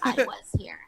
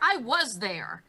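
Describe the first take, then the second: First: It is said in a put-on character voice. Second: It is said in the speaker's normal voice.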